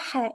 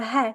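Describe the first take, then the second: First: The h sound is harsh. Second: The h sound is soft. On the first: The speaker calls it wrong. "it's not a ha" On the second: The speaker calls it right. "it's a ha, soft ha"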